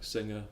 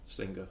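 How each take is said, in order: First: The ng has no g after it. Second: The ng is followed by a g.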